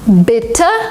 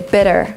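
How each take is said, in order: First: It has a British accent with a clear t. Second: It has an American accent with a soft d. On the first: "it sounds a little British" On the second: "In American English they would say"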